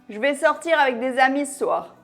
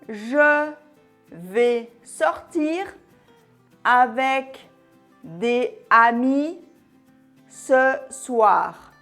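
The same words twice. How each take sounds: First: The words flow together smoothly, linked to each other. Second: Each word is separated, choppy and robot-like. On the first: It sounds natural and relaxed. The speaker calls it right. "C'est mieux" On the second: It does not sound like a native speaker. The speaker calls it wrong. "sans enchaînement ni liaison. C'est vraiment saccadé. Un peu comme un robot"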